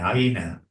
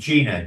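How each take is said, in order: First: The name is said the French way. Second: The name is said the English way. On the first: "the French write it I E N A" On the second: "we would pronounce it Jena"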